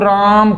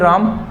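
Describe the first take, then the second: First: The aa vowel is stretched out long. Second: The vowel is said short and plain. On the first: The person called is far away. "राम दूर है तो आप उसको राम कहोगे" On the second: The person called is nearby. "राम अगर पास में तो आप कहोगे राम"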